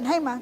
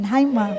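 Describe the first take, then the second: First: Much softer, bashful "Hi, Ma."; shy soft greeting. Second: Said in the usual way. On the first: Shown as a demonstration. Son kissing his mother, soft and bashful. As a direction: say "Hi, Ma." softly, shyly. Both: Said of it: "Pero pag kumiss yan, ganun".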